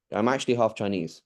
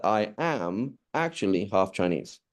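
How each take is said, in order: First: Said in the usual way. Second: "am" and "actually" drawn out and stressed; doubly emphatic. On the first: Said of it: "it's actually the case". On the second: Shown as a demonstration. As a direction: lean hard on "am", then on "actually". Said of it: "now I've really emphasized something".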